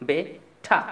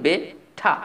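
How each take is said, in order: The two takes are said the same way.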